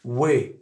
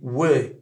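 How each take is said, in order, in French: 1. La voyelle est un i relâché, proche du é. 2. La voyelle est un i relâché, proche du é.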